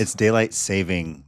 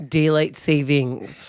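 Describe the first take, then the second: First: "saving" said with no s at the end; saving without s. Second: Drawn-out "savings" with the final s. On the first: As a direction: correct her: "daylight saving", no final s. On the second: Answering the co-host, slow "Daylight savings" with the s. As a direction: say "Daylight savings" slowly, ending on a clear s. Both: Shown as a demonstration.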